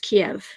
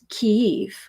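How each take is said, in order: First: The name is said the Russian way. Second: The name is said the Ukrainian way. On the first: This is how Russians say the name. "the Russians pronounce the name of that city as Kiev" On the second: This is how Ukrainians say the name. "the Ukrainians pronounce it as Kyiv"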